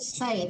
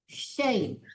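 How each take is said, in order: First: The syllable begins with a plain s sound. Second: The syllable begins with a sh sound. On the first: The speaker calls it wrong. "jangan say" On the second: The speaker calls it right. "tapi shay"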